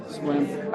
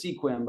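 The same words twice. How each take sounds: First: "Sequim" as one syllable, "skwim"; correct local pronunciation. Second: "Sequim" in two syllables, "SEE-kwim"; spelling pronunciation. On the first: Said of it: "I say it correctly". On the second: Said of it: "I still see it as". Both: Shown as a demonstration.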